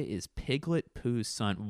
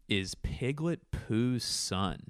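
First: Said in the usual way. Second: Slow, drawn-out "Is Piglet Pooh's son?" with a long "son"; slow dictation. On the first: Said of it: "What did I just say?". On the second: Shown as a demonstration. Host repeating his podcast title while writing it down, slowly. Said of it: "let me write that down".

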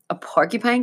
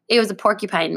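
First: "porcupine" asked with a rising, doubting tune; doubtful question. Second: Said in the usual way. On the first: Acted. Boy doubting the scary animal, rising disbelieving question. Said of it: "Kevin repeated, frowning". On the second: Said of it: "Mel said".

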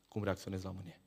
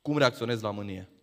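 First: Hushed emphasis. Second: Said in the usual way. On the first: Shown as a demonstration. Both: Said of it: "Atenție mare!".

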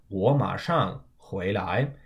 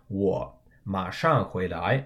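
First: "我马上回来" with 我 rising straight into 马; double third-tone change. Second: "我马上回来" with 我 in its own third tone, set apart; separate third tones. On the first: Teacher shows the quickly spoken version, double third-tone change. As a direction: run 我 into 马 in "我马上回来", first tone of the two rising. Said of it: "use the double third tone exception rule". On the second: Teacher shows the unshortened version, separate third tones. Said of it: "are both third tones". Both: Shown as a demonstration.

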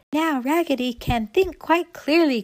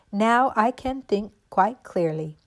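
First: High, loud cheering echo; excited cry. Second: Slow, measured doll line; relieved declaration. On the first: All the dolls echoing Raggedy, high excited cry. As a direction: cheer the news in a raised voice. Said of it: "cried all the dolls". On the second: Raggedy Ann after her head is pinned, slow relieved declaration. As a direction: state it slowly, with slight relief. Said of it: "cried Raggedy Ann". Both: A narrator's reading.

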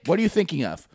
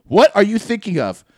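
First: Higher-pitched probing, at normal volume; insistent question. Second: Loud, high mock interrogation; angry demand. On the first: Retold or imitated. Offended friend asking the laugher, insistent but contained. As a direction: press them for the answer, still contained. First demand, then repeated harder. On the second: Offended friend pressing the laugher, loudly demanding. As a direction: repeat the question forcefully, acting fed up. Same demand repeated louder.

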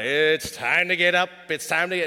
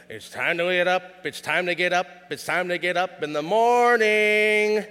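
First: The wake-up chant again, pushed louder; louder wake-up call. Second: Sung, grandpa's wake-up song. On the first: Grandpa calling the unmoving kid, louder sing-song. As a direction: sing it out louder to a kid who won't move. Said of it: "he'd go a little louder". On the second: Grandpa singing to wake his grandson, sing-song. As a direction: chant it like a grandpa rousing a sleepy kid. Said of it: "he'd go". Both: Retold or imitated.

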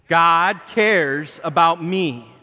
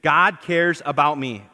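First: "God cares about me" said very slowly and firmly, leaning hard on "cares"; like you mean it. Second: Said in the usual way. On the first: Shown as a demonstration. Pastor urges the church to mean it, emphatic slow declaration. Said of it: "Now like you mean it". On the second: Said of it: "I want you to say this with, with me".

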